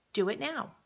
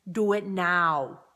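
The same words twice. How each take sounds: First: Said in the usual way. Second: Slow, loud, clipped action-hero command; Arnold Schwarzenegger. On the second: Retold or imitated. Coach urging viewers to recontact people, in a slow, loud tough-guy voice. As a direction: bark "do it now" slowly and loudly like a movie tough guy. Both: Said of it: "In my best Arnold Schwarzenegger voice".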